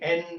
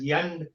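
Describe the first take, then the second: First: It starts with a plain vowel. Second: It starts with a y sound, Karnataka style.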